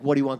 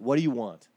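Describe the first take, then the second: First: It is said rudely and dismissively. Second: It is said apologetically and eager to help.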